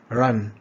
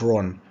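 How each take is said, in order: First: The vowel is the short vowel of cup. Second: The vowel is the rounded vowel of cop. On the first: The speaker calls it right. "the caret sound... as in cup" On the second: The speaker calls it wrong. "not run"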